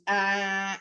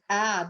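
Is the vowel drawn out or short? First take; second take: drawn out; short. First: The vowel is dragged out and distorted. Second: The vowel is short and crisp. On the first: The speaker calls it wrong. "when you drag out a short vowel sound, it it it becomes altered" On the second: The speaker calls it right. "a short vowel sound"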